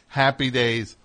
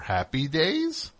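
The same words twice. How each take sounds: First: The voice falls at the end like a statement. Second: The voice rises at the end like a question. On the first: It is a plain title. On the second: The title is a question.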